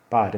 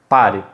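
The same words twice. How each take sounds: First: It is said softly and weakly. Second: It is said firmly and sharply.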